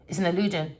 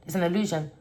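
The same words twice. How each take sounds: The two takes are said the same way.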